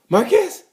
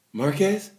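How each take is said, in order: First: High, incredulous squawk rising sharply; mock disbelief. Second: Softly puzzled, rising question; a first stunned double take, voice held back; mild disbelief. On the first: Rival who can't believe it's Marquez, hammed-up disbelief. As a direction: voice leaps up in hammed-up astonishment. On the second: Acted. Rival spotting Marquez on track, mildly disbelieving.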